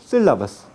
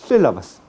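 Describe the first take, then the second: No difference in how they are said.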